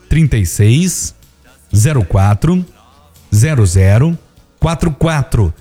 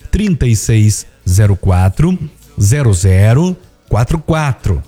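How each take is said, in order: First: The number is said very slowly. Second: The number is said at normal speed.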